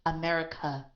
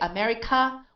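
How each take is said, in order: First: The vowel after the k is a light uh. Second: The vowel after the k is full and stressed. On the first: The speaker calls it right. "this is an unstressed sound. So it's America" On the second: The speaker calls it wrong. "we're stressing the k"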